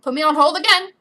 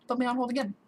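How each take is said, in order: First: Loud, raised complaint; worked-up, punched delivery; exasperated outburst. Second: Said in the usual way. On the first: Real, not acted. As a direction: call it out in annoyance. Exasperated first take, then repeated flatly.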